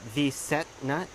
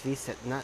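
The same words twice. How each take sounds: First: The t sound is fully released. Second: The t sound is cut short. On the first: The speaker calls it wrong. "it's not V set nut" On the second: The speaker calls it right. "So you kind of sh- cut the T down"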